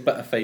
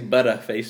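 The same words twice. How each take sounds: First: The middle consonant is dropped entirely. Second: The middle consonant sounds like a D. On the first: "we'd say Butterface with no T" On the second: "the Americans would say Butterface with a D"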